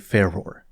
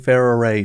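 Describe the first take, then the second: First: The name is said with two syllables. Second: The name is said with three syllables. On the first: "I am not calling Ferrare Ferror" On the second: "they pronounce her name using three syllables"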